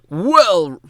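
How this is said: It is said in a very low voice.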